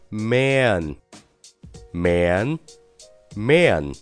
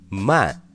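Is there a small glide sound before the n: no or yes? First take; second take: yes; no. First: A small glide sound comes before the n. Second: The vowel runs straight into n, no glide. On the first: The speaker calls it right. "是不是中间有一个很小的的音呀" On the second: The speaker calls it wrong. "你可千万不要读成man，这可是个英文单词，并不是拼音"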